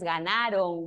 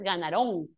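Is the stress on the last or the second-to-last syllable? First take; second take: second-to-last; last. First: The stress is on the second-to-last syllable. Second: The stress is on the last syllable. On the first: The speaker calls it right. "dices ganaron, grave" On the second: The speaker calls it wrong. "No dices ganaron"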